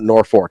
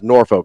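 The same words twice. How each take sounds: First: The second syllable sounds like 'fork'. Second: The second syllable sounds like 'folk'. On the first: The speaker calls it wrong. "not Norfolk" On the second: The speaker calls it right. "Norfolk is pronounced Norfolk"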